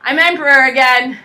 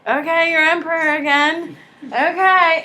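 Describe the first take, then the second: First: Louder, stressing emperor; proud proclamation. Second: Grudging, resigned acceptance; resigned giving in. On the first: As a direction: declare it to the crowd like a victor. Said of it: "and says". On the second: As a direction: concede it with a shrug in the voice. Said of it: "And the French government's like". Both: Retold or imitated.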